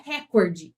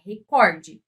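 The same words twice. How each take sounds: First: "recorde" with an open first vowel, stressed RÉ-corde; the common mistake, stress on the first syllable; "recorde" said wrong, RÉ-corde. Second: "recorde" stressed on the middle, re-CÓR-de, a bit slower; the right form, weight on CÓR; "recorde" said carefully as re-CÓR-de; correct stress. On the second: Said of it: "Não é recorde, é recorde". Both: Shown as a demonstration.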